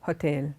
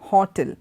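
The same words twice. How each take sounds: First: The stress is on the second syllable. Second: The stress is on the first syllable. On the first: The speaker calls it right. "it goes up in that T and E" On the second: The speaker calls it wrong. "The stress does not come on that first word H O"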